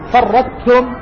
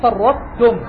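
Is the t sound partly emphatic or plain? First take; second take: plain; partly emphatic. First: A plain t is pronounced with no emphasis. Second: The ṭ merges into t but keeps its emphasis. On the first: The speaker calls it wrong. "أن تزيل الطاء تماما فتقرأ بتاء خالصة" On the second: The speaker calls it right. "الصواب أن تقرأ بإدغام مع مراعاة إبقاء الاستعلاء والإطباق"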